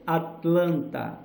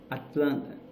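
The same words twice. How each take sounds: First: "Atlanta" slowly, with the last T sounded; full T. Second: "Atlanta" with the last T dropped, "Atlanna"; quicker, shorter "at-LAN-na"; flat T. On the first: Teacher showing the word before dropping T, slow full "Atlanta". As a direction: say "at-lan-TA" syllable by syllable. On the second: Teacher showing the thrown-away T, "Atlanta" as "Atlanna". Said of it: "aquela jogada do T fora". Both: Shown as a demonstration.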